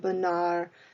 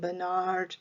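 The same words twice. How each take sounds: First: The name has a French pronunciation. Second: The name has an American English pronunciation. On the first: "French pronunciation" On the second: "American pronunciation"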